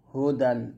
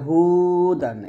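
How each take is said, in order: First: The vowels are short and quick. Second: The vowels are drawn out long. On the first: The speaker calls it right. "হরকতের উচ্চারণ তাড়াতাড়ি করে পড়তে হয়।" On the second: The speaker calls it wrong. "এরকম ভাবে টেনে পড়তে পারবো না"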